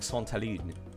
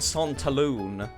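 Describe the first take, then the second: First: The name is said with a French pronunciation. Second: The name is said with an English pronunciation. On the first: "I've been using my French pronunciation" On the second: "instead of calling it Santaloon"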